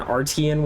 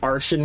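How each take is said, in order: First: The middle sound is a clear 't' sound. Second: The middle sound is 'sh', as in Martian. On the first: "I know they pronounce it Artian in the game" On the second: "I pronounce it Arshan, because T I N, T I A N, Martian"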